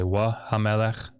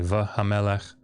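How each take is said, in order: First: The first word begins with a W sound. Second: The first word begins with a V sound. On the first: "I don't say wa hamelech" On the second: "I say va hamelech"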